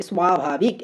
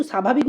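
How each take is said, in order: First: স্বাভাবিক drawn out with the silent ব-ফলা voiced as w; spelling pronunciation. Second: Said in the usual way. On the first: Shown as a demonstration. Teacher shows how it is not said, স্বাভাবিক with a sounded "swa". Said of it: "এভাবে উচ্চারণ করছি না". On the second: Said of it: "এখানে কিন্তু স্বাভাবিক উচ্চারণ করছি".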